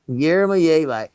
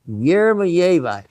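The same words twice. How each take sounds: No difference in how they are said.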